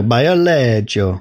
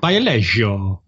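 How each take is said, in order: First: Put-on Bio Lego said as BEE-oh LEH-jo, Italian accent; lightly Italian Bio Lego, rolled and slow. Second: Put-on slow Italian accent, Bio Lego as LEH-jo; drawn-out Italian Bio Lego. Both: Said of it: "I was trying to read it in an Italian accent".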